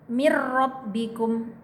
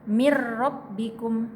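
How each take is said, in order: No difference in how they are said.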